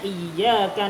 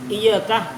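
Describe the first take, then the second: First: The y sound is held long, doubled. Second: The y sound is short, not doubled. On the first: It means to You, God. The speaker calls it right. "kalau ada tasdidnya" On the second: It means to the sunlight. The speaker calls it wrong. "tanpa tasdid"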